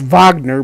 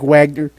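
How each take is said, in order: First: The name is not said as it is spelled. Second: The name is said just as it is spelled. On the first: The speaker calls it right. "actually pr- it's pronounced Wagner" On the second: The speaker calls it wrong. "it's spelled like Wagner"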